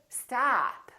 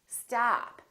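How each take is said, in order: First: The vowel is long and drawn out. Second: The same.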